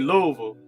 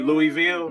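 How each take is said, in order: First: It is pronounced the way locals say it. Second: It is pronounced the way outsiders say it. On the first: The person saying it knows the place. The speaker calls it right. "when they say Louisville, then then you know they know" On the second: The person saying it is not from there. The speaker calls it wrong. "you hear them say Louisville, then you know they not"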